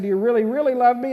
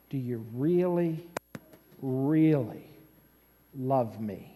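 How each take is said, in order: First: Rattled-off retold question; quick recap. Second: Low, soft, spaced-out question; earnest probing. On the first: Preacher recapping what Jesus asks Peter, quick recap. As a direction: run through it fast in a normal voice. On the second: Acted. Jesus asking Peter a third time, earnest probing. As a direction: ask it quietly, pausing before each key word.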